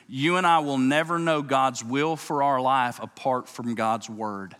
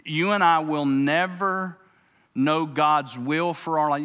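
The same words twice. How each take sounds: First: Said in the usual way. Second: Slow and louder, leaning on "never" and "God's"; slow emphatic statement. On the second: Shown as a demonstration. Preacher to congregation, pressing the point: slow and emphatic. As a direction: plant each word of "You and I will never know God's will". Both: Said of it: "This is good".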